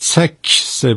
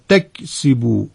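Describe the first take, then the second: First: The t and k are both sharp and bouncing. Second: The t is soft and the k unbounced. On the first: The speaker calls it wrong. "هر دو تا حرف رو تیز اینطوری بگیم، نه" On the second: The speaker calls it right. "حرف تا رو نرم بگیم، کافم قلقله نگیره"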